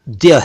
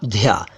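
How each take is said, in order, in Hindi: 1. यह एक सादा d है, जिसके बाद y आता है। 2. यह एक साँस वाला dh है, जिसके बाद y आता है। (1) "ये तो द्य है" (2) "और ना ध्या"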